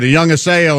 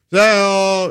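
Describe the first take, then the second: First: Said in the usual way. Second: "Haseo" pitched up and stretched out; breezy drawn-out short hello; shortened casual greeting. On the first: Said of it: "if I came in and said". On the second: Shown as a demonstration. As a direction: answer with a high, casual, long "Haseo". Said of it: "kind of a shortened".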